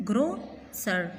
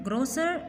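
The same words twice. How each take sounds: First: "grocer" as gro, then cer; two separate beats in "grocer" with a gap; split into syllables. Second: Said in the usual way. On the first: Shown as a demonstration. Teacher showing students two syllables, "grocer" broken after gro. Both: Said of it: "टू syllables".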